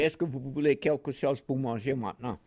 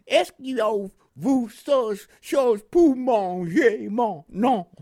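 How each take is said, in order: First: Said in the usual way. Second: Slow, loud, high Southern drawl in French; French with Southern accent. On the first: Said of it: "in French, say". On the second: Retold or imitated. Veteran imitating the Mississippi lieutenant's French, heavy Southern accent. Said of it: "in his French Southern accent".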